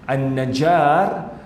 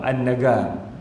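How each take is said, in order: First: The middle consonant is a j sound. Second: The middle consonant is a hard g sound. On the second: "dibunyi ga"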